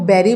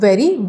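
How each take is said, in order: First: The word begins with a b sound. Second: The word begins with a v sound. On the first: The speaker calls it wrong. "बेरी बोल देते हैं। तो ये एक mistake होता है।" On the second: The speaker calls it right. "वी का sound है"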